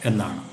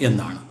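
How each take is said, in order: The two takes are said the same way.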